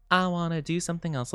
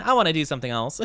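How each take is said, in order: First: Quick, quieter silly echo. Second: Said in the usual way. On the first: Pretend. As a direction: toss it off in a silly voice. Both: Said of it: "repeats it in another voice".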